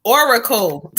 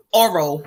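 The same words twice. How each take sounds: First: "Oracle" said carefully with all three syllables, as the fix; corrected word. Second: "Oral" said as a plain two-syllable word, the mistaken reading; slip of the tongue. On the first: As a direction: correct yourself firmly with "Oracle". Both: Shown as a demonstration. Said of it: "that's not what I meant to say".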